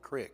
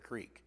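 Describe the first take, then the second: First: The vowel is short, as in 'kick'. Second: The vowel is long, as in 'seek'. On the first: "calling it crick" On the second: "instead of creek"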